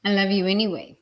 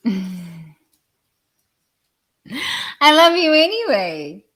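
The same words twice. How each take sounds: First: Said in the usual way. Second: I love you anyway, pitched high, loud and slow with a laugh; high, sing-song. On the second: Shown as a demonstration. Speaker teasing angry listeners with a high, loud, laughing, drawn-out love you anyway.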